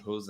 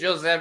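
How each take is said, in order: First: The name is said the non-Brazilian way. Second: The name is said the Brazilian way. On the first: This is how the person's name really goes. "his name is actually Jose" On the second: This is how people say it in Brazil. "that's how we say it in Brazil"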